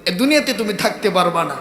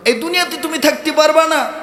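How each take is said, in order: First: Said in the usual way. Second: High, insistent preaching tone; raised emphatic warning. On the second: Acted. Preacher voices Allah warning mankind, raised emphatic warning. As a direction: raise the pitch and drive the warning home.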